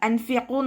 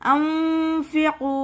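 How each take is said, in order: First: The n sound is pronounced fully and clearly. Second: The n sound is hidden and nasalized. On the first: The speaker calls it wrong. "നോദിപ്പോവരുത്" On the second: The speaker calls it right. "നൂനിൻ്റെ സൗണ്ടിനെ മറച്ചു വെക്കും ചെയ്യുക, അതോടൊപ്പം തന്നെ മണിക്കും ചെയ്യുക"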